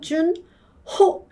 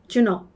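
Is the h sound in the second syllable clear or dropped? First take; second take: clear; dropped. First: Said syllable by syllable, with a clear h. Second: Said relaxed and quickly, with the h dropped. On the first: "준, 호 이러면 준, 호라는 거 알지만" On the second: "힘이 빠졌기 때문에 ... 준오처럼 들린다고요"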